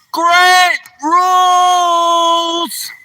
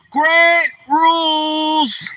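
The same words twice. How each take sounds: First: Long drawn-out yell, very high and loud. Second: Drawn-out yell, high and loud. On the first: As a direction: belt the name out slowly at full volume. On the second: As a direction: shout it out again, slow and long. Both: Real, not acted. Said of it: "You want me to yell your name out real loud".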